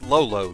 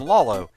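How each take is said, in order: First: Both syllables of the name sound identical. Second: The name's two syllables sound different. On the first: "probably supposed to be pronounced Lolo, just repetition of that one syllable" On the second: "I got used to calling him Lalo"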